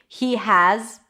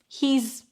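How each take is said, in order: First: Has is said as a separate full word. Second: Has shrinks to a z sound on he.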